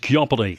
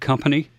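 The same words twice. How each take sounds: First: It is said in a big, exaggerated announcer voice. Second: It is said in a plain, normal speaking voice. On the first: "You say it as company. That coming pronunciation" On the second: "You don't say the word company"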